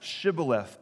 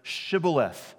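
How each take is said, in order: First: The word begins with an sh sound. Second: The word begins with an sh sound.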